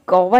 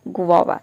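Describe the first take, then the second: First: The word begins with a 'gow' sound. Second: The word begins with a 'gwa' sound. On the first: The speaker calls it wrong. "गौवा इसको pronounce नहीं" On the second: The speaker calls it right. "इसको pronounce करते हैं गुआवा"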